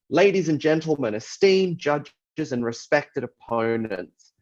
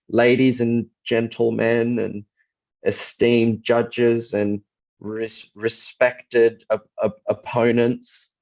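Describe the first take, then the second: First: It is delivered smoothly and confidently. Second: It is delivered slowly with stumbles over words. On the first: The speaker has researched and rehearsed well. The speaker calls it right. "If you speak it like that and you sound very confident" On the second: The speaker is unprepared and unsure. The speaker calls it wrong. "you're stumbling over words and you're very slow in your delivery"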